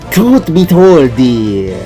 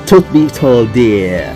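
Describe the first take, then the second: First: It is said in a put-on vampire voice. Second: It is said in an ordinary speaking voice.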